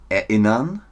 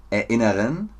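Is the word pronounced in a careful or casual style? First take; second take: careful; careful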